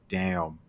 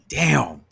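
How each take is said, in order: First: It sounds worried and uneasy. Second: It sounds surprised and excited.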